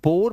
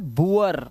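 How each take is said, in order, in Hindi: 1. स्वर एक सादा, लंबा oh है। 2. स्वर oo से uh की ओर जाता है। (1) "बुर या बोर मत पढ़ लेना" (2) "ये है बुअर"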